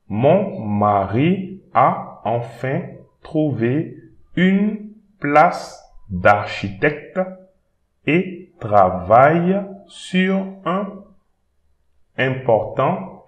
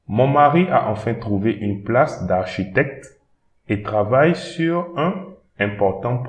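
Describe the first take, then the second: First: The sentence is read slowly and carefully. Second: The sentence is read at a normal speed.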